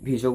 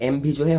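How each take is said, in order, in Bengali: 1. শব্দটি V ধ্বনি দিয়ে শুরু হয়। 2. শব্দটি M ধ্বনি দিয়ে শুরু হয়। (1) "ইয়াৰ প্ৰনাউন্সিয়েশ্যনটো আমি ভিজো বুলিয়ে কৰিম" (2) "এইটো এম ভিজোহে হ'ব লাগিছিলে বাট নো"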